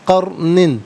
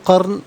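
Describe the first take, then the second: First: The word ends with a full -nin ending. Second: The word ends abruptly on a bare n. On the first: The reading continues without a stop. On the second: The reader stops at this word.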